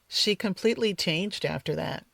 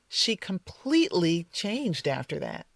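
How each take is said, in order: First: The stress is misplaced and the delivery sounds flat. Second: Completely is stressed and the delivery sounds emotional. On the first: It is just a report of what happened. The speaker calls it wrong. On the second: The change feels dramatic and significant. The speaker calls it right.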